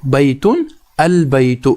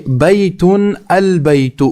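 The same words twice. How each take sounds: First: Calm slow echo for students; slow repeat. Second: Slow, careful demonstration of بیتن البیت; slow teacher model reading. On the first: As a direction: say بیتن البیت again slowly, settling down. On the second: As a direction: read بیتن البیت slowly, word by word for the class. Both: Shown as a demonstration. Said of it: "یہاں پر آپ پہلی مثال دیکھ لیجئے".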